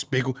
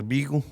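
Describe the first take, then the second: First: Said in the usual way. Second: "beagle" said with an ee for bagel; mispronounced bagel. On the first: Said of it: "It's fucking bagel". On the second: Retold or imitated. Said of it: "as my girlfriend calls it".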